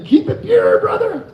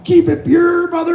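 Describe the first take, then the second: First: Hammed-up shouted slogan; mock shout. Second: Higher, louder urging; retold pumped-up encouragement; enthusiastic quote. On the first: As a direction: shout it out like a battle cry. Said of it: "What I meant to say was". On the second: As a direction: cheer them on, keen and upbeat. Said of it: "'cause I'm all".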